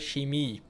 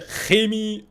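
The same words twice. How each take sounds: First: The ch at the start is soft. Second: The ch at the start is hard. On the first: This is how Germans say it. "Spricht es auch immer so weich aus" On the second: This is how the Swiss say it. "Wir sagen alle Chemie"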